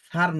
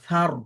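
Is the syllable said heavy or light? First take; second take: light; heavy. First: The syllable is said light and thin. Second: The syllable is said heavy and thick. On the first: The speaker calls it wrong. "সার না" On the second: The speaker calls it right. "একটু মোটা করে"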